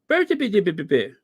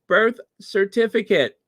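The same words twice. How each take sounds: First: The phrase is pronounced in a garbled, mangled way. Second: The phrase is pronounced clearly and normally. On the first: The speaker calls it wrong. "not birth certificate. That's what she said" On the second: The speaker calls it right. "at least pronounce it right. It's birth certificate"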